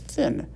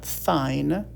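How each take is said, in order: First: The vowel is said as a short I sound. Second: The vowel is said as a long I sound. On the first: The speaker calls it right. "I in thin is a short I sound" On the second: The speaker calls it wrong. "It's not thine"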